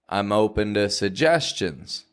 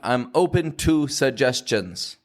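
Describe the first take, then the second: First: The vowel in 'to' is a reduced schwa. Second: The vowel in 'to' is a full vowel. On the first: The speaker calls it right. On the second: The speaker calls it wrong. "we don't want"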